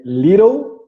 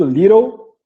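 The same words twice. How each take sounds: First: "little" said as "lirow", the T a quick tapped R; flapped T. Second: "little" ending in "o", the final L swallowed: "lirou"; silent L. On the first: Teacher showing students the tapped T in "little". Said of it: "o T e uma vogal depois dele, é muito comum ficar com esse som de R". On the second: Teacher showing students that the final L in "little" goes silent. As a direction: let the last L of "little" fade to an "o" sound. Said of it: "porque o L aqui fica mudo". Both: Shown as a demonstration.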